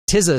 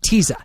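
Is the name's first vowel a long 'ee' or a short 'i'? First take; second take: short i; long ee. First: The first vowel is a short 'i', like tizzy. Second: The first vowel is a long 'ee', like Visa. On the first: The speaker calls it wrong. "Tizza sounds weird. I feel like Tizza should be with a Z" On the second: The speaker calls it right. "it rhymes with Visa"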